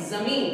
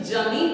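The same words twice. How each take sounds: First: जमीन begun with buzzing z, as zameen; correct z pronunciation. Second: जमीन begun with hard j, as jameen; wrong j pronunciation. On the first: Teacher correcting the wrong take, जमीन with a z. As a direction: say जमीन with z, not j. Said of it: "क्या बोलेंगे, जमीन". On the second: Teacher showing what not to say, जमीन with a j. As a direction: say जमीन with j, no buzz. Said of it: "इसको जमीन नहीं बोलेंगे". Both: Shown as a demonstration.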